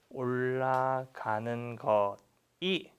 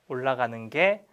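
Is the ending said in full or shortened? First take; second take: full; shortened. First: The ending is said as two full syllables. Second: The ending is contracted into one syllable.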